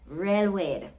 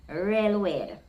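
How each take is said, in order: No difference in how they are said.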